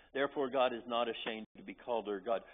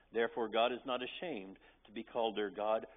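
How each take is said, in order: Both takes have the same delivery.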